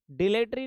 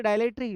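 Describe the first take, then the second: First: The mistaken डिलेटरी, di-LE-te-ri, no "ai" glide; wrong pronunciation. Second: डायलेटरी with a clear "dai" opening, DAI-le-ta-ri; the right way, डायलेटरी starting with an open "ai" glide; correct pronunciation. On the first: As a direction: say डिलेटरी with a short plain "di" at the start, di-le-ta-ri. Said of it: "डिलेटरी नहीं बोले". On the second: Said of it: "बोलेंगे डायलेटरी". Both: Shown as a demonstration.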